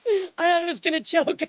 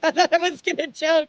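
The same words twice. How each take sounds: First: Said in the usual way. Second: Laughing through the words; real laugh, a bit louder. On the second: Real, not acted. Repeats line laughing.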